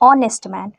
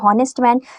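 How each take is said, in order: First: The word begins with a vowel, no h. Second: The word begins with an audible h sound. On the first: The speaker calls it right. "एच जो है वो silent होता है" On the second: The speaker calls it wrong. "यहाँ पे एच को ह पढ़ने लगते हैं"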